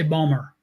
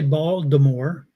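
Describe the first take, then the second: First: It is said in a local Baltimore accent. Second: It is said in a standard pronunciation.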